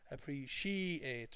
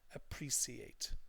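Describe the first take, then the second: First: The stress is on the third syllable. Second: The stress is on the second syllable. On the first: The speaker calls it wrong. "think this is the stressed part and then they mispronounce it" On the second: The speaker calls it right. "the stress is on pre"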